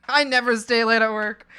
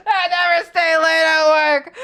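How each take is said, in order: First: Said in the usual way. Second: High, loud, slow screamed refusal; hammed-up crying yell; mock shout. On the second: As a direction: yell it like a tantrum. Repeated yelled.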